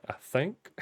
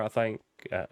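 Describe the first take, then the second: First: Said in the usual way. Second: "think" said like "thaink", Southern US accent. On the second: Real, not acted. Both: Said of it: "my southern accent really pokes through".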